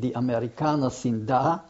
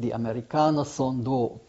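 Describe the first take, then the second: First: It is said in standard German. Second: It is said in Austrian dialect. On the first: "In German, it would have been" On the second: "but in the Austrian"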